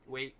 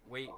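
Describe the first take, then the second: No difference in how they are said.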